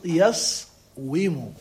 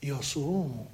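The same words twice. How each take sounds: First: يصوم split as yas-wu-mu, with a w; original form. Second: يصوم low and soft as ya-suu-mu, long u; spoken form. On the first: Teacher contrasting the origin, يصوم pronounced slowly as yas-wu-mu. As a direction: stop on the s in يصوم, then a clear wu-mu. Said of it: "والأصل يصوم". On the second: Teacher giving the actual pronunciation, يصوم as ya-suu-mu. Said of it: "إذا النطق شنو هو النطق؟". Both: Shown as a demonstration.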